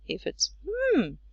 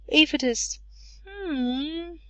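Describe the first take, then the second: First: The hum sounds strongly agreeing. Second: The hum falls and rises, sounding unsure. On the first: The listener agrees strongly. "it's even better. It means strong agreement" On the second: The listener is not sure. "when it falls and rises, it's a bit uncertain"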